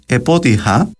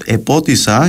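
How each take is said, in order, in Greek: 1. Ο ήχος h έρχεται πριν το τελευταίο φωνήεν. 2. Ο ήχος s έρχεται πριν το τελευταίο φωνήεν.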